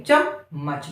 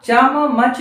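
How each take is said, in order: First: Said in the usual way. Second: चमच with each म as its own syllable; split double consonant. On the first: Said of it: "जैसे बोलते हैं". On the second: Shown as a demonstration. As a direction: say चमच as "chaa-ma-mach". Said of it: "चमच नहीं है". (चमच में हर म को अलग-अलग बोलते हुए)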